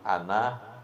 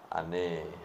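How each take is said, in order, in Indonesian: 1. Kata itu berakhir dengan vokal 'a' terbuka. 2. Kata itu berakhir dengan vokal 'e'. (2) "Yang ada e itu di orang Betawi"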